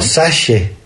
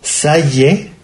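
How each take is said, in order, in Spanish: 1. La consonante del medio es al estilo rioplatense. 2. La consonante del medio no es al estilo rioplatense.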